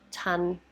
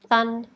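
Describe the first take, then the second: First: The word begins with a t sound. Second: The word begins with a th sound. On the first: "stop the air to make a t" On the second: "make a th sound instead"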